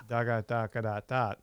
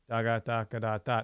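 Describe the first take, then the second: First: It is said in a flat, bored monotone. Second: It is said in a flat, bored monotone.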